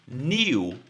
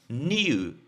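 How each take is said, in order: First: It is said as 'nyoo' with a glide. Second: The same.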